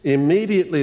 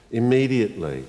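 First: "Immediately" called out loud and high, each syllable hit; emphatic. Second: "Immediately" said softly at normal pitch with a gentle fall; quiet. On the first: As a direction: ring out "Immediately" like a bell. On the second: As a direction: let "Immediately" settle like an amen. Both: Shown as a demonstration. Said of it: "look for the word immediately".

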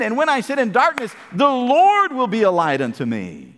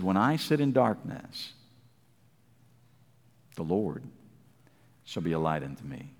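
First: Ringing proclamation. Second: Very low and soft, fading to near nothing; hushed scripture. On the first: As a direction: proclaim it as a victory. Verse proclaimed with fire. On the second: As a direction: read it like a secret comfort. Verse read hushed. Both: Acted.

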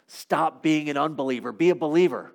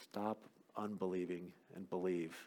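First: Said in the usual way. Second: Very soft, low, intimate command; quiet, lowered plea to believe; hushed appeal. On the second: Shown as a demonstration. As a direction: bring it right down to a low hush. Same command repeated, hushed.

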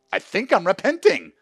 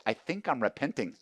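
First: "I think I'm repenting" cried out high and loud, stress on "I'm"; emotional loud confession. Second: Said in the usual way. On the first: Retold or imitated. Husband telling his wife, loudly overcome. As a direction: blurt the confession through tears. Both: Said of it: "I go".

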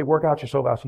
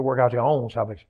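First: Said in the usual way. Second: "own" stretched and leaned on; emphasize the word "own"; stress on OWN. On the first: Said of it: "he wouldn't just say". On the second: Shown as a demonstration.

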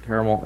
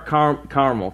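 First: "Carmel." with three syllables, car-a-mel; said like caramel. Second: Said in the usual way. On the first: Shown as a demonstration. Joking to the tour group, "Carmel." said as caramel flavor. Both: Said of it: "It's flavor".

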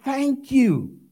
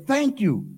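First: Loud thanks. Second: Said in the usual way. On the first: Acted. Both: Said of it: "and with a loud voice said".

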